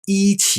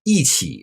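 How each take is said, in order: First: The word is said without a fourth tone. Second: The word is said with a fourth tone. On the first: The speaker calls it wrong. "instead of" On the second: The speaker calls it right. "It changes to fourth tone"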